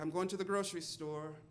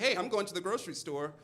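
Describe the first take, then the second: First: It is said passively, without energy. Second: It is said energetically, with conviction.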